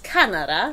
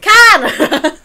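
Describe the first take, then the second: First: The first vowel is not emphasised. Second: The first vowel is clearly emphasised. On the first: The speaker calls it wrong. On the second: The speaker calls it right.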